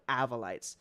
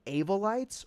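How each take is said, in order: First: "Avolites" as slow AV-uh-lites, falling; short-a pronunciation. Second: "Avolites" as slow AY-vuh-lites; long-a pronunciation. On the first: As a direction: open "Avolites" with AV as in "have", slowly. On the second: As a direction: open "Avolites" with AY as in "day", slowly. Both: Shown as a demonstration. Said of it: "Did I say that wrong?".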